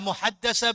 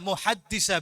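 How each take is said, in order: First: The vowel after the double d is 'a'. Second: The vowel after the double d is 'i'. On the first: "Dibaca muhaddasah bisa" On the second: "dibaca muhaddisah bisa"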